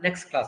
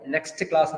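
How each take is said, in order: First: The t at the end of next is dropped. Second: The t at the end of next is pronounced.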